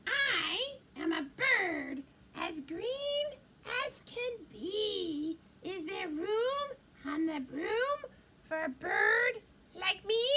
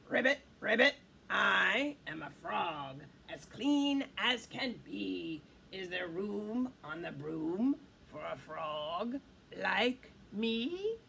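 First: Bird character. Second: Croaking frog. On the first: Bird asking the witch for a ride, birdlike. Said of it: "then said". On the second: Frog asking the witch for a ride, croaking. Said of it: "then said with a croak". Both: Acted.

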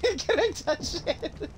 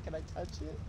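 First: High, drawn-out pleading; slow, high mock-starstruck question; hammed-up awe. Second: Very soft, hushed asking; mock-starstruck request, barely daring to ask; low-key reverent hush; timid awe. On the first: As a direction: play up the childlike wonder. Replays his starstruck question for laughs. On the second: Starstruck, shyly asking permission.

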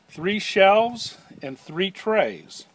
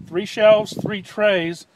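First: "three shelves and three trays" said slowly, each word spaced out; slow stress. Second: "three shelves, three trays" punched loud, "shelves" and "trays" hit hardest; loud stress. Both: Shown as a demonstration. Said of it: "again, three shelves, three trays".

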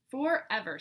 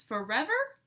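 First: Level, falling, final statement; firm answer. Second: Rising, slightly higher disbelieving question; surprised question. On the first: Smudge answering Goose, firmly and finally. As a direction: plant it down as settled. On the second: Goose hearing Smudge left home, asking in surprise. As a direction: ask it in disbelief. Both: Acted.

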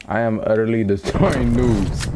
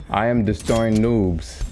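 First: "destroying" pitched up after a laugh; gloat, letting "destroying" jump up; emphatic boast. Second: Said in the usual way. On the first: Real, not acted. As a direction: lean hard on "destroying". Boast repeated with added emphasis.

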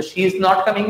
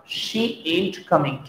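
First: Said in the usual way. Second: Softer, very slow "ain't" slurred; casual ain't. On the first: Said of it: "नहीं बोला जाएगा". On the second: Shown as a demonstration. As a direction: lean into "ain't" lazily. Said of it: "क्या बोला जाएगा?". ("ain't" ढीले अंदाज़ में धीरे)

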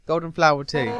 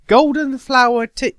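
First: Said in the usual way. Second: Louder and higher, "Golden flower tea?" in disbelief; a loud, appalled "Golden flower tea?"; incredulous. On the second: Acted. Undyne outraged at flower tea.

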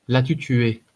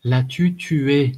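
First: Dry, sharp question; terse interrogation; curt. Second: "L'as-tu tué?" drawn out, higher and louder; slow, raised, insistent repeat of "L'as-tu tué?". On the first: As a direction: demand an answer curtly. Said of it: "demanda-t-elle sèchement". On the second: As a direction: press hard on "tué", very slowly. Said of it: "insista-t-elle". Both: A narrator's reading.

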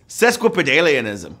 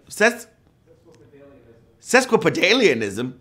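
First: Sesquipedalianism said cleanly with a falling tune; corrected attempt. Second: Sesquipedalianism stumbled over, an extra syllable slipped in; fumbled attempt. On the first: Host correcting his fumble, clean and settled. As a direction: get Sesquipedalianism right, calm and falling. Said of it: "I need glasses". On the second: Host fumbling the long word, unsure rising tune. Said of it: "I put an extra syllable in there". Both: Shown as a demonstration.

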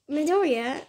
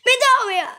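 First: Said in the usual way. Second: High, loud yelled name out of nowhere; sudden scream. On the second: Retold or imitated. Timmy bursting out in the game chat, screaming. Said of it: "he just screamed".

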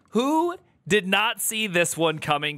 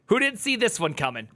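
First: "Who" stretched long and rising, then "not" stressed; emphatic repeat. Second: Said in the usual way. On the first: Real, not acted. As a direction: draw out "Who" and punch "not". Repeats question, uncontracted for emphasis.

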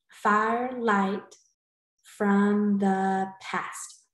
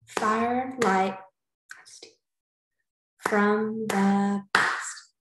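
First: Very slow, one beat each; clapped syllables. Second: Slow, beat by beat; firelight, from the past, slowly in beats; clapped syllables. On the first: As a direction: clap firelight from the past again. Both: Shown as a demonstration. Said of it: "clap out the syllables".

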